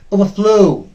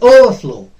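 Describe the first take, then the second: First: The stress is on the second part. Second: The stress is on the first part. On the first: The speaker calls it right. "The second part of uh, this compound verb will be stressed" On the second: The speaker calls it wrong. "We pronounce it as overflow. That is wrong"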